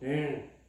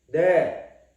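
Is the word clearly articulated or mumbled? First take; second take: mumbled; clearly articulated. First: The word is mumbled with barely open lips. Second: The word is said clearly with lips open. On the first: The answer sounds vague and unclear. The speaker calls it wrong. "이렇게 얼버무리지 말고 ... 이게 뭐야 이게? 바보같이" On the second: The answer is clear and definite. The speaker calls it right. "네 할 때는 입술을 벌려가지고"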